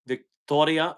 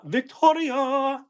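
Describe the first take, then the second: First: Said in the usual way. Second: Drawn-out high call of Victoria; calling "Victoria" in a long, high lilt; sing-song call. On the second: Shown as a demonstration.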